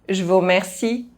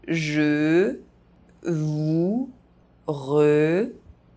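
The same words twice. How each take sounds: First: The phrase is spoken fast. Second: The phrase is spoken very slowly. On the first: "fast, as a native speaker would do" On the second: "very slowly"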